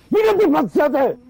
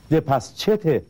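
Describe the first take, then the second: First: Impatient shout. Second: Said in the usual way. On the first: Acted. Impatient man yelling at a fidgety waiter. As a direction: repeat the question much higher and louder. Repeats question, ignored first time.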